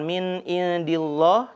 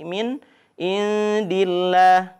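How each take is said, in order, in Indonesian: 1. L di Allah terdengar tebal dan berat. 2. L di Allah terdengar tipis dan ringan. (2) "dibaca tarqiq. Jadi tipis"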